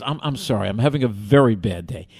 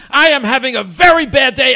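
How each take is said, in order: First: Lower-pitched, apologetic delivery; apologize, composed but still stressed; calmed down. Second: High, full-force exasperated yell; screaming. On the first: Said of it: "calms down". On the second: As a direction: bellow it as an angry complaint. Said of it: "he starts screaming at me". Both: Retold or imitated.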